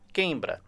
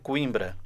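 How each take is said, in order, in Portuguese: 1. A primeira sílaba soa como 'quei'. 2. A palavra é dita do modo habitual em português.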